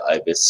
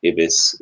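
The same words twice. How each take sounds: First: Ibis with a long I, EYE-bis; first vowel of Ibis as in "eye"; show's pronunciation. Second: Ibis with a short I, IH-bis; first vowel of Ibis as in "it"; habitual pronunciation. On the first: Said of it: "try and pronounce it that way". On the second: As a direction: say Ibis as IB-iss. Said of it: "stuck in my head". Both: Shown as a demonstration.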